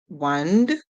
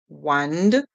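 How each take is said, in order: Both takes have the same delivery.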